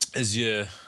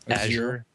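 First: The word is said in an affected, fancy way. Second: The word is said in a plain, everyday way. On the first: "with my pinky finger well extended" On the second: "I always say this wrong"

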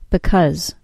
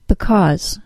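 First: The second syllable has a short 'uh' vowel. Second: The second syllable has a full 'aw' vowel. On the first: The word is said in its common unemphasized form. "the second syllable is reduced to a short U sound" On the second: The word is given extra emphasis. "the second syllable is pronounced with the AW sound"

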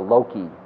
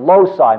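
First: The word has a Latin pronunciation. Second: The word has the usual English pronunciation. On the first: "It's really the loci method" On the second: "as we usually pronounce it, the Latin and English"

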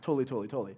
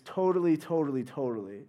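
First: It is said very fast. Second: It is said at a normal pace.

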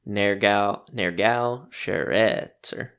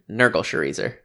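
First: The name is said closer to its original sounds. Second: The name is said in a casual anglicized way. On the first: "The phonetic pronunciation would actually be Nergal Sharetzer" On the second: "Nurgle Sharezer is how I'm going to say it"

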